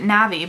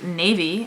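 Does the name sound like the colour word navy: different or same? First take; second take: different; same. First: It does not sound like the word navy. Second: It sounds like the colour word navy. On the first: "I pronounce it Navi" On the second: "could be pronounced Navy, as in the shade of blue"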